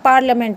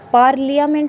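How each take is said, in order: First: The i is silent, with no extra vowel. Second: The i is sounded as an extra vowel. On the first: The speaker calls it right. "पार्लियामेंट होता है ये" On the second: The speaker calls it wrong. "पार्लियामेंट नहीं बोलेंगे"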